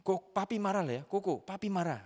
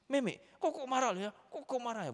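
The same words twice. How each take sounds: First: High, louder parental scolding; mock angry father. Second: Put-on very high-pitched little boy's scolding; child copying angry father. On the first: Father telling off his four-year-old, imitated angry and high. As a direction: scold a small child, acted out. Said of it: "marah sama dia itu begini". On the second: Six-year-old scolding little sister just like dad, imitated high and angry. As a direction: mimic a child's mock telling-off. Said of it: "Marahnya itu persis seperti saya gini".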